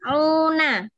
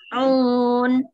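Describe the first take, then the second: First: The ending is said with its final vowel. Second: The ending is said without its final vowel. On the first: The reading continues without a stop here. "belum ada tanda wakof, maka masih fatkah tetap dibaca" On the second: The reader stops at this point. "setelah ada tanda wakof, maka akan dibaca"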